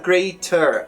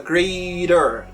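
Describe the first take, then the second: First: The middle consonant is a hard T. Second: The middle consonant is a quick tap. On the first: The speaker calls it wrong. "A gente não fala" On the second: The speaker calls it right. "a gente fala"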